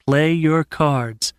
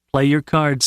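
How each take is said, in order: First: "Play your cards" drawn out word by word; "Play your cards" at a very slow, deliberate pace. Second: Said in the usual way. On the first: A narrator's reading. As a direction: slowly urge yourself on, stretching "Play your cards". Character repeats self-advice, drawn out.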